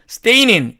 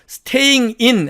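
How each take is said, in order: First: The ending is reduced and linked to the vowel. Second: The -ing ending is said in full. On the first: "이런 식으로 발음을 변화시켜서" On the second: "하려니까 어렵습니다"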